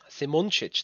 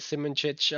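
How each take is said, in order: First: The surname is said in its native form. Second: The surname is said in an anglicized form. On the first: The speaker calls it right. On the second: The speaker calls it wrong.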